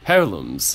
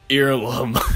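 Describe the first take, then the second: First: The first syllable sounds like 'air'. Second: The first syllable sounds like 'ear'. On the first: The speaker calls it right. "like an heir to the throne" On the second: The speaker calls it wrong. "I've been pronouncing it Earlum"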